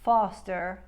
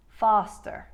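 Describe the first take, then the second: First: Said in the usual way. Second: "foster" with ah as in spa; loud Queens "foster", wide-open first vowel. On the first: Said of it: "That means foster becomes". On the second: Shown as a demonstration. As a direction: say "foster" with a Long Island ah. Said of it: "will make it the wider".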